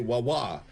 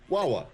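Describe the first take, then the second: First: The stress is on the second syllable. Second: The stress is on the first syllable. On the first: The speaker calls it wrong. "there's a stress on the second wah" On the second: The speaker calls it right. "It's Wawa"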